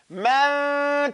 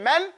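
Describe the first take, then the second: First: The n is hidden and stretched over two counts. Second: The n is pronounced fully and briefly. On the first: The speaker calls it right. "So I'm just stretching it out, not really p- pronouncing it" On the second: The speaker calls it wrong. "Instead of saying man"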